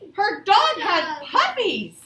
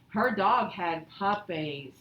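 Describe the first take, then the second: First: It is read with lively excitement. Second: It is read flatly, without excitement. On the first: The speaker calls it right. "I need to show some excitement" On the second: The speaker calls it wrong. "We don't just"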